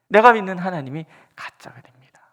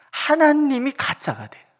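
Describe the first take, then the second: First: 내가 punched loud at the start; loud emphatic 내가, then a firm finish; stress on 내가. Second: 하나님이 hit loud and higher, slow, falling; loud emphatic 하나님이, slow falling close; stress on 하나님이. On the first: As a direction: open hard on 내가, keep the rest steady. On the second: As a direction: punch 하나님이 loud and high, then slowly fall through 가짜가 돼요. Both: Shown as a demonstration.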